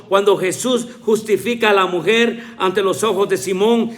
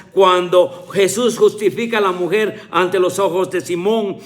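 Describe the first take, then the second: No difference in how they are said.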